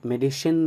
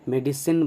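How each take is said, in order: First: The middle consonant is a sh sound. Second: The middle consonant is an s sound. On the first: The speaker calls it wrong. "मेडिसिन नहीं बोलेंगे, तालव्य श नहीं" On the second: The speaker calls it right. "मेडिसिन बोलेंगे, दंत स"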